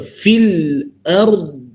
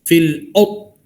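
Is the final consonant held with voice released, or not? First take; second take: held; not held. First: The final consonant holds breath and releases voice. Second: The final consonant ends without held breath or released voice. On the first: The speaker calls it right. "tahan nafas lepas suara" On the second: The speaker calls it wrong. "Jangan fil ard fil ard. Salah"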